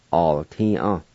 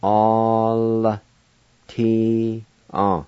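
First: Said in the usual way. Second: "All, T, A" slowly, first syllable held long; silent I, syllable by syllable. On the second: Shown as a demonstration. Teacher showing run away, syllable by syllable. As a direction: draw out "All", then separate "T" and "A". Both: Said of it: "It's pronounced like this".

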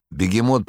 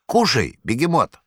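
First: Said in the usual way. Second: High, mock-hospitable wheedling voice; Korovyev's invitation. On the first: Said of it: "plain narration of the name". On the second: A narrator's reading. Korovyev offering the cat a treat, high sly coaxing. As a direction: coax the cat to eat like a sly host.

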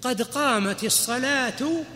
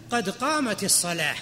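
First: Slow, drawn-out example; slow demonstration. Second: Said in the usual way. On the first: Shown as a demonstration. Teacher slowly demonstrates the phrase to students. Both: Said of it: "إيش مثال الساكن؟".

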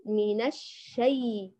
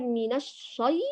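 First: الشي slow, with thin front shay; unhurried, unthickened shay in الشي; light correct reading. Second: الشي with thick, backed shay; dark emphatic vowel in الشي; heavy wrong reading. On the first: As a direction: model a light, held ش in الشي. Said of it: "بل من الشي". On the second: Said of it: "تفخم لا النون ولا الشين". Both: Shown as a demonstration.

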